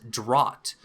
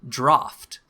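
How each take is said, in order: First: The word is said without an f sound. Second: The word is said with an f sound. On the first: The speaker calls it wrong. "which I pronounced as draught" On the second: The speaker calls it right. "It's actually pronounced draft"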